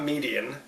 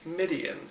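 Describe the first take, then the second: First: The first syllable sounds like 'mee'. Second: The first syllable sounds like 'mid'. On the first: The speaker calls it wrong. "I keep saying Median. It's not Median" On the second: The speaker calls it right. "it's Midian"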